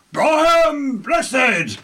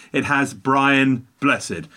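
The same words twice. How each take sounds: First: A booming, thrilled Brian Blessed; delighted exclamation. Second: Said in the usual way. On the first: Real, not acted. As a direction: shout Brian Blessed like a fan cheering. Joyful exclamation of the actor's name.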